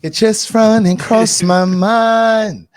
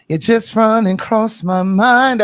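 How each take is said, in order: First: Slow, high sung-out line; [name] quote. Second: Slow, high, drawn-out quote; sing-speak it slow and high; [name] quote. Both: Retold or imitated. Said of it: "That was [name] that said that".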